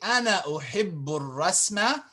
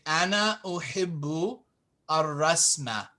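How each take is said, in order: First: The words are run together into one flow. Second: The words are said separately, not run together. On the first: "it's better to say it like that" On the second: "you could chop it up"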